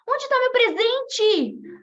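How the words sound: It is said with anxious eagerness.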